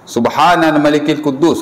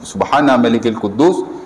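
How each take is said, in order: First: It is said in a raised, louder voice. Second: It is said at normal loudness.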